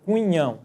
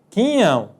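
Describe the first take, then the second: First: A 'w' sound follows the k sound. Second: No 'w' sound follows the k sound. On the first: The speaker calls it wrong. "nós não dizemos cunhão" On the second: The speaker calls it right. "nós dizemos quinhão"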